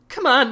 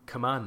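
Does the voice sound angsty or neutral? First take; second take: angsty; neutral. First: It is said in an angsty, brooding tone. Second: It is said in a plain, neutral tone.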